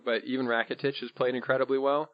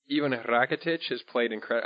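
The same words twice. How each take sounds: First: Said in the usual way. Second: A light, unplanned Spanish accent on the names. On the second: Real, not acted. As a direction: slip into a faint Spanish accent mid-sentence. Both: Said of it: "I said it with Spanish accent".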